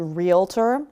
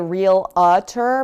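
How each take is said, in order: First: The word is said with two syllables. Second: The word is said with three syllables. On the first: The speaker calls it right. "but it's actually realtor" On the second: The speaker calls it wrong. "a lot of people say real-a-tur"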